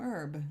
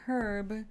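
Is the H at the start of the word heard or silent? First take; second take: silent; heard. First: The word starts without an H sound. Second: The word starts with a clear H sound. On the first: The speaker calls it wrong. "made it kind of silent, and it became herb" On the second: The speaker calls it right. "please do pronounce the H. It's correct"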